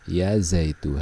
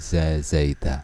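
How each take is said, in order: First: The name ends with the vowel u. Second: The name ends with the vowel a. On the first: The speaker calls it right. "dhammah tanpa tanwin" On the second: The speaker calls it wrong. "tidak boleh"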